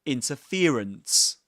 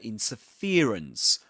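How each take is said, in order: First: The main stress falls on the 'fer' syllable. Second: The same.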